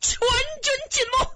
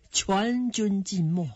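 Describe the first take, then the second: First: Very high, strained outcry; high-pitched despairing report; anguished cry. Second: Said in the usual way. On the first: A narrator's reading. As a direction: cry out the loss of the whole army. Hero cries that army is lost. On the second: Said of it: "李直说了这句".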